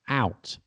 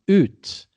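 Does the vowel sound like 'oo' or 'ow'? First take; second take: ow; oo. First: The vowel glides like 'ow'. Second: The vowel is a plain 'oo'. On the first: This is how the word is said now. "we s- out" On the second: This is how the word was said long ago. "used to be ut"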